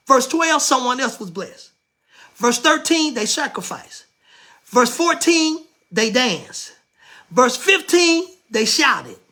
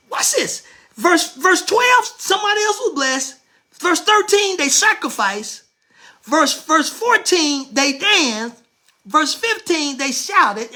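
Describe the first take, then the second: First: Said in the usual way. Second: Preaching at full force. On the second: Acted. The preacher listing the verses again to drive them home, rising and louder. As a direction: build it up, hitting each verse number.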